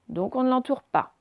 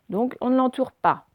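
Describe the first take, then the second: No difference in how they are said.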